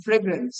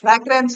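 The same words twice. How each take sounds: First: "ফ্রেগরেন্স" with "fray" at the start; corrected first vowel. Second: "ফ্র্যাগ্রেন্স" with a short "a" as in frag; wrong first vowel. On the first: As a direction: say "ফ্রেগরেন্স" opening on an "e" sound, lower. ("ফ্রেগরেন্স", প্রথমে এ ধ্বনি দিয়ে) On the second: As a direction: say "ফ্র্যাগ্রেন্স" opening on an open "fra" sound. ("ফ্র্যাগ্রেন্স", প্রথমে খোলা অ্যা ধ্বনি দিয়ে) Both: Shown as a demonstration. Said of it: "কথা হলো ফ্রেগরেন্স".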